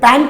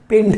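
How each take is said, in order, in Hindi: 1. पहला अक्षर 'pant' जैसा सुनाई देता है। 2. पहला अक्षर 'pent' जैसा सुनाई देता है। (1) "कुछ स्टूडेंट पैंट बोलते हैं" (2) "पेंट है"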